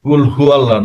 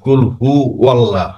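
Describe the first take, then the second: First: Hu runs straight into Allah without w. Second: A w sound links hu into Allah. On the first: The speaker calls it wrong. "কুল হু আল্লাহ না" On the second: The speaker calls it right. "ওয়াল্লাহ হবে"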